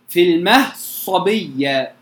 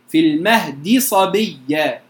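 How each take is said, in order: First: The d is merged fully into the following s. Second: The d and its vowel are pronounced in full. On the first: "الإدغام" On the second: "بالتحقيق الكامل بغير إدغام أصلا"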